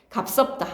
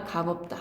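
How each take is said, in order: First: 갑섭다 with the ㅅ of 값 sounded; wrong linked pronunciation. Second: 갑없다 said as 가법따, without ㅅ; correct simplified pronunciation. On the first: Teacher showing the reading to avoid, 갑섭다 with ㅅ. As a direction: say 갑섭다, carrying ㅅ into the second syllable. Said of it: "아니라 갑없다". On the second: Teacher correcting the reading, 갑없다 without the ㅅ. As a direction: say 갑없다 with only ㅂ linked, as 가법따. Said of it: "갑섭다 아니라". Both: Shown as a demonstration.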